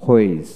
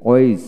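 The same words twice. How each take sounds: First: হোয়েজ with an audible h first; হোয়েজ starting on breathed hw; American h pronunciation. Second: ওয়েজ starting on w, no h; ওয়েজ with a plain w onset; British w pronunciation. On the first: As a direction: sound the h in হোয়েজ. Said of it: "আমেরিকানে হ". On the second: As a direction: drop the h in ওয়েজ. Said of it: "British উচ্চারণে". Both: Shown as a demonstration.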